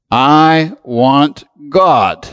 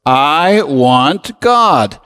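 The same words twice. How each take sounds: First: Slow declaration. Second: I want God said very slowly, each word weighed; slow, drawn-out declaration. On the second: Preacher leading the congregation in a slow declaration. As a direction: lead the room through I want God at a slow pace. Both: Shown as a demonstration. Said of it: "Say it with me".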